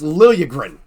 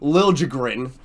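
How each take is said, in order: First: The j is said like an English y. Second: The j is said like an English j. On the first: The speaker calls it right. "you know how J's work in that language. It's Liljegren. Pronounce it correctly" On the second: The speaker calls it wrong. "would not stop calling Liljegren"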